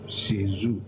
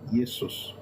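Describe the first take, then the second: First: It is said with a French pronunciation. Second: It is said with a Latin pronunciation. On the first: "the French will call him" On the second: "Latin will be"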